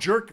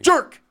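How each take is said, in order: First: The word is said plainly, without force. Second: The word is said loudly and with force.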